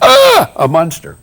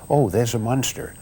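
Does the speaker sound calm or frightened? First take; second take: frightened; calm. First: It is said in a frightened, excited way. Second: It is said calmly, without alarm.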